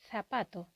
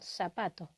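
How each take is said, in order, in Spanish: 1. El primer sonido es un sonido th. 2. El primer sonido es un sonido s. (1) "teníamos toda la razón del mundo en decir zapato" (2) "y no zapato"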